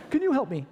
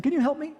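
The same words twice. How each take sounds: First: High, louder begging again; pleading hitchhiker. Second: High, loud begging question; pleading hitchhiker. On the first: Freezing hitchhiker to passing drivers, high loud pleading. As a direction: beg the cars once more. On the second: Freezing hitchhiker to drivers going his way, high loud pleading. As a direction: plead with every passing car. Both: Retold or imitated. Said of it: "You're saying".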